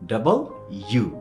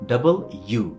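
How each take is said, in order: First: The letter name is said in full, double then u. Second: The letter name is said in full, double then u.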